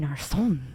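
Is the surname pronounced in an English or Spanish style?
Spanish. The surname is said with Spanish-style sounds. This is a newer way of saying the name. "adding a little more flavor when she pronounces her last name"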